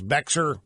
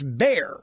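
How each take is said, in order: First: The name is said with an audible x sound. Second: The name is said like 'bear', no x sound. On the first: The speaker calls it wrong. "I've been pronouncing the name of this county in Texas" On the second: The speaker calls it right. "and it's Bear"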